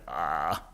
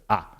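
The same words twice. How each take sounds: First: The vowel is said with a creaky voice. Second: The vowel is said with a smooth voice.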